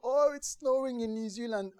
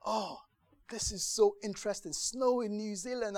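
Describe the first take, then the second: First: Put-on high, bright-eyed child's exclamation; over-the-moon kid voice, higher and louder; thrilled child. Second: Lightly mock-interested, pitched up; a touch of bored politeness, higher; polite interest. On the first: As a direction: gush it out as an excited ten-year-old. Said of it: "being a ten-year-old". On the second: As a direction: feign polite curiosity about the news. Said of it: "you're like".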